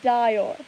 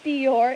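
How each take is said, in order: First: The first vowel is a long I. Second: The first vowel is not a long I. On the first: The speaker calls it right. "it's a long I" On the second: The speaker calls it wrong. "Not Dior"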